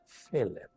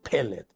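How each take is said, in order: First: The word begins with a soft f sound. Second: The word begins with a strong p sound. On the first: The letter has no dot inside. "cuando no tiene ese puntito dentro, entonces es fellet" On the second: The letter carries the dot inside. "es más fuerte"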